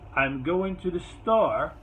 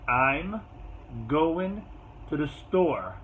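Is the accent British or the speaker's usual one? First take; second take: British; usual. First: It is said in a put-on British accent. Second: It is said in the speaker's usual accent.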